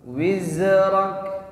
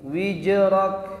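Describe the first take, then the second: First: The middle consonant is a flowing z sound. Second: The middle consonant is a j sound. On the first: The speaker calls it right. "Huruf zai itu ada rokhawah, mengalir suara" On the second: The speaker calls it wrong. "kadang suka tertukar jim"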